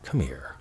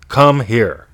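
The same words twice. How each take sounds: First: It is said in a warm, loving tone. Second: It is said in a bossy, commanding tone. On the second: "the bossy one"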